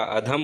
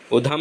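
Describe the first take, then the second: First: अधम as "a-dham"; corrected a opening. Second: उधम as "u-dham"; wrong u opening. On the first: Teacher correcting it, अधम starting with "a". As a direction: open अधम on short a. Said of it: "अधम होता है वो". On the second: Teacher showing the error, उधम starting with "u". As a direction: open उधम on u. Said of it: "उधम नहीं होता". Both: Shown as a demonstration.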